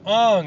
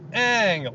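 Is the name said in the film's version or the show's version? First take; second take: film; show. First: The name is said the film's changed way. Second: The name is said the original show's way. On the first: The new film's version of the name. The speaker calls it wrong. "they changed all the pronunciations" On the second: The fans' correction using the original name. The speaker calls it right. "like a callback"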